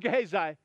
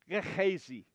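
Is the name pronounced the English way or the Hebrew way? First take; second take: English; Hebrew. First: The name is pronounced an anglicized English way. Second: The name is pronounced the Hebrew way. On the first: The speaker calls it wrong. "So I just call him Gehazi" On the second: The speaker calls it right. "If you pronounce it in Hebrew, it's Gehazi"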